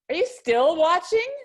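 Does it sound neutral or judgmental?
judgmental. It is asked in a judging, disapproving tone.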